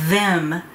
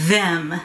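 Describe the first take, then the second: Both takes have the same delivery.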